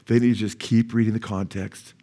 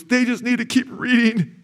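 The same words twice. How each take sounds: First: Said in the usual way. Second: Very high, strained crying voice; imitated tearful voice. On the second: Preacher quotes his sobbing friend on Calvinists, imitated tearful voice. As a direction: mimic a man wailing it through tears. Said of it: "and he's crying".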